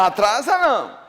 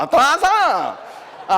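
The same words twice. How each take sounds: First: Atrasa não shouted firmly, punching não. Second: Atrasa não drawn out slowly with a laugh. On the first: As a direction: bark Atrasa não as a flat denial. (Atrasa não gritado com firmeza) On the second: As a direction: stretch out atrasa não, chuckling. (atrasa não dito devagar, rindo) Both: Shown as a demonstration.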